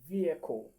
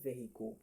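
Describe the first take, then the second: First: It sounds like 'V equal'. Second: It does not sound like 'V equal'. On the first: The speaker calls it right. "It's more like saying V equal" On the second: The speaker calls it wrong. "It is not vehicle"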